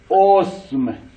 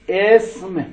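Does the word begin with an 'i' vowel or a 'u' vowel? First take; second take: u; i. First: The opening vowel is u. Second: The opening vowel is i.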